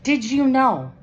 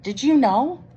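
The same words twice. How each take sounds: First: Louder and higher question. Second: Said in the usual way. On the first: A narrator's reading. Unicorn repeats louder so Kitty hears. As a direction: say it up so she hears. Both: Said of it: "says Unicorn".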